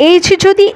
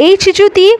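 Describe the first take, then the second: Both takes have the same delivery.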